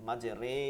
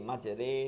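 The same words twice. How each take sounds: The two takes are said the same way.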